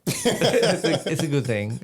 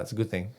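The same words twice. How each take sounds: First: High laughing repeat of "good thing". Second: Said in the usual way. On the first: Real, not acted. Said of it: "It's a good thing. (repeats)". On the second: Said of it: "my son will be like".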